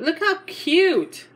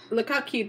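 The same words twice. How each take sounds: First: Higher and slow, drawn-out Look how cute; slow, high, adoring Look how cute; gushing. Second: Said in the usual way. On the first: Real, not acted. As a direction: stretch out Look how cute like melting over it.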